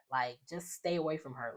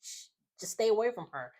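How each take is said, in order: First: Said in the usual way. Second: Higher and a bit faster, pressing the point on away; insistent retold warning. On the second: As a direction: push the warning harder, higher in pitch. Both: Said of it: "repeats the warning louder".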